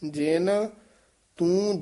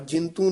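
First: The two words are kept separate. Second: The two words are merged into one. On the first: The speaker calls it right. "ਇਹ ਜੇਨ ਇੱਥੇ ਯਮਕ ਹੈ" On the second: The speaker calls it wrong. "ਜਿੰਤੂ ਨਹੀਂ ਕਹਿਣਾ ਹੈ"

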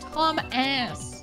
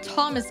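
First: It is said as two separate words. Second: It is said as the usual single name. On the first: The speaker calls it right. "You have to say it that way" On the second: The speaker calls it wrong. "not Thomas"

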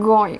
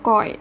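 First: The first consonant is voiced, with throat vibration. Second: The first consonant is voiceless, like Thai k. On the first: The speaker calls it right. "เราจะออกเสียงว่ากอยกอย" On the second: The speaker calls it wrong. "เราจะไม่เรียกว่ากอย"

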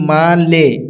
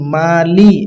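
First: The second syllable ends with an 'e' vowel. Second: The second syllable ends with an 'i' vowel. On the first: The speaker calls it wrong. "অনেকজন পড়ি মা লে, ... এই জায়গায় লে হবে না" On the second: The speaker calls it right. "এই জায়গায় হবে লি"

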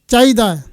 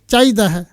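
No difference in how they are said.

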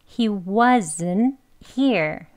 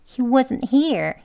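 First: The sentence is said at a slower pace. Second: The sentence is said at a quick pace. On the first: "그리고 이어서 he wasn't here" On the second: "빨리 이어서는 he wasn't here"

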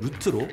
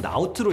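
First: The vowel sounds like 'oo'. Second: The vowel sounds like 'ow'. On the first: This is how it is read in aviation. "항공에서는 루트로" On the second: This is how it is read in shipping. "해운에서는 라우트로 읽는답니다"

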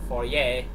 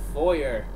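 First: It is said with a French pronunciation. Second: It is said with an English pronunciation.

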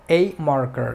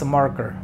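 First: The article is a full 'ay' sound. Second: The article is a short reduced 'uh' sound. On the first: It stresses that there is only one. "Si quieres enfatizar en que solamente es uno, eh, la letra A o el artículo A se pronuncia como A" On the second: It is ordinary fluent speech. "cuando estás hablando de manera fluida, normalmente no lo pronuncias como A, sino como A"

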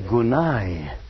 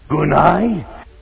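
First: The word is said softly and gently. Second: The word is shouted loudly. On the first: The speaker calls it right. "A word of gentleness and tenderness" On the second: The speaker calls it wrong. "he didn't shout"

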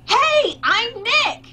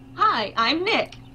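First: It is said louder, almost shouted. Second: It is said at a normal, quieter volume.

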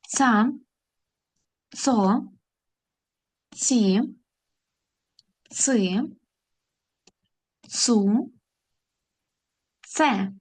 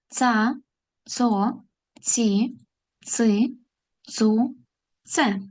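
First: The syllables are read at a moderate pace. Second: The syllables are read at a fast pace. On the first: "А тепер разом прочитаємо ці склади" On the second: "Тепер швидше"

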